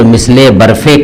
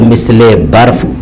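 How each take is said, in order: First: The word barf ends with an added e vowel. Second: The word barf ends without a linking vowel. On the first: The speaker calls it wrong. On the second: The speaker calls it right.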